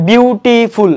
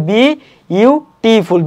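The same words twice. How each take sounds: First: "বিউটিফুল" in three parts, বিউ-টি-ফুল; "বিউটিফুল" with বিউ as a single beat; mistaken syllable split. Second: "বি ইউ টিফুল" with a pause after বি; corrected syllable split. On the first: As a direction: run "বিউ" together as one syllable, then টি-ফুল. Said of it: "এভাবে হবে না". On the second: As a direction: separate "বি" from "ইউ", then run on into টিফুল. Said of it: "এটা হবে". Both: Shown as a demonstration.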